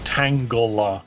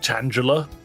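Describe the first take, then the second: First: It is said with a hard 'g', like tangle. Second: It is said with a soft 'gel', like Angela. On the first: The name is built on tangle. "because it's a it's a tangle" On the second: The name is built on Angela. "because its clearly the name Angela"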